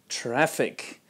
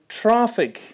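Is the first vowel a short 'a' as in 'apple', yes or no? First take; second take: yes; no. First: The first vowel is a short 'a' as in 'apple'. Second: The first vowel is not a short 'a' as in 'apple'. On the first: The speaker calls it right. "Traffic with the short vowel A like in apple" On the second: The speaker calls it wrong. "I hear traffic instead of"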